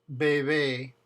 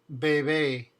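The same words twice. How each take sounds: The two takes are said the same way.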